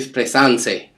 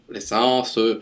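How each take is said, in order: First: It is pronounced with Italian vowels. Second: It is pronounced the French way, ending in schwa. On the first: The speaker calls it wrong. "an Italian with mistake would be" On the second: The speaker calls it right. "he went and finished with that schwa e"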